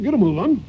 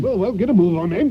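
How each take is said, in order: First: Higher, louder "Get a move on"; impatient shout. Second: Impatient shout. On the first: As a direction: bark it out to hurry him along. Master repeats the order louder. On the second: Impatient master hurries servant. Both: Acted.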